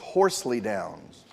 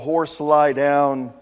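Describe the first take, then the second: First: The first two words are run together. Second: The name is said as three separate words. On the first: "I believe the pronunciation for this is" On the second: "if you pronounce it the way it's spelled here"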